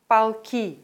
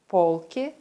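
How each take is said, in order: First: Полки said pal-KI, the O reduced to A; полки as regiments, last syllable stressed. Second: Полки said POL-ki, clear stressed O; Полки as shelves, first syllable stressed. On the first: Teacher contrasting homographs, last-syllable stress. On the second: Teacher contrasting homographs, first-syllable stress. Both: Shown as a demonstration. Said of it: "Den Unterschied erkennt man an der Aussprache".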